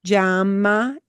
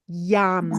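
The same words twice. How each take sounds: First: "Llama" as ZHAH-mah; tiny twist of zh before the y in "Llama"; teacher's ZH variant. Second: "llama" as YAH-mah; just a y at the start of "llama", no zh; simple Y variant. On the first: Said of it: "is the way I pronounce it". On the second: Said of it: "okay to just say". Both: Shown as a demonstration.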